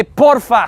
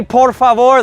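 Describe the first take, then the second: First: Casual local porfa; relaxed Spanish porfa; local clipped porfa. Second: Said in the usual way. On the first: Shown as a demonstration. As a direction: say porfa, two quick syllables, dropping the end of por favor. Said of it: "Speak like a local". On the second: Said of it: "let's say".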